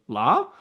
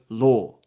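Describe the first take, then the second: First: It is said with an open American vowel. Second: It is said with a rounded British vowel.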